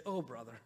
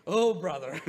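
First: Low, dry eye-roll of an unimpressed grandmother; mock exasperation, dropped low; imitating exasperated grandmom. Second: Loud, laughing retake of the grandmother's line; repeating the punchline to the congregation through laughter. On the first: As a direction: grandmom rolling her eyes at the yoga teacher, dry. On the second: Retold or imitated. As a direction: burst out laughing as you say it again. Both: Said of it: "hear this yoga instructor and say".

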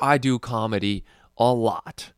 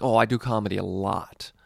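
First: Exaggerated mock voice for the guy, a bit louder. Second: Said in the usual way. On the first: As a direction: overdo his delivery, then admit he doesn't talk like that. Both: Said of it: "He doesn't even sound like this".

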